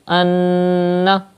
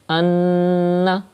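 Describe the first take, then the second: First: The n is held nasally for two counts. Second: The same.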